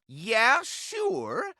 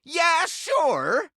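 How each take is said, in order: First: Said in the usual way. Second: Emphatic yell. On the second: Acted. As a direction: belt it out like an eager agreement. Repeated louder.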